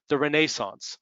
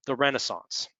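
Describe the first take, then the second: First: Renaissance the British way, ruh-NAY-sunce; British pronunciation. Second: Renaissance with the American stress, REN-uh-sahns; American pronunciation. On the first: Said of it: "excuse me". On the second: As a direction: Renaissance said the US way, first syllable stressed. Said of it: "for those of you in Britain". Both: Shown as a demonstration.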